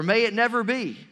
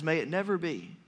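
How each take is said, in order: First: NEVER pushed louder in "May it never be"; strong rebuke. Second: Said in the usual way. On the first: Shown as a demonstration. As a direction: land hard on never. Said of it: "Paul would very strongly rebuke". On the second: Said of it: "Another translation says".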